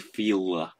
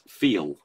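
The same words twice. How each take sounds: First: The final L forms a separate second syllable. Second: The final L forms no syllable of its own. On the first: The speaker calls it wrong. "you couldn't go feel, feel ... it just doesn't happen" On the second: The speaker calls it right. "It's feel"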